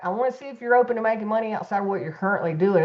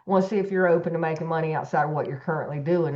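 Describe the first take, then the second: First: It is said in an excited, enthusiastic tone. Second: It is said in a casual, nonchalant tone.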